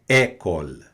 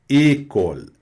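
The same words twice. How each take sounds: First: The first vowel is an open e. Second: The first vowel is a closed e. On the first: The speaker calls it wrong. "Não é école" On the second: The speaker calls it right. "é fechado"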